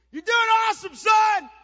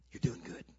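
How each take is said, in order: First: High, full-volume cheer; screamed encouragement. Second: Whispered cheer to your son; hushed encouragement. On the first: Dad cheers on his benched son, screaming. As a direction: bellow praise across the field to your son. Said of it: "I'd scream out". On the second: Dad encourages son on the sidelines, whispering. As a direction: drop to a voiceless, supportive whisper. Dad's encouragement after shouting. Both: Retold or imitated.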